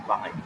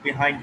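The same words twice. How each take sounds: First: "behind" with "buh" at the front; American pronunciation. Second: "behind" with "bi" at the front; British pronunciation. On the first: Teacher recapping opposites for students, "behind" said buh-HIND. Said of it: "American pronunciation". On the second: Teacher recapping opposites for students, "behind" said bi-HIND. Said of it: "British pronunciation". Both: Shown as a demonstration.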